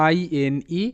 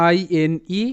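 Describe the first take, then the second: No difference in how they are said.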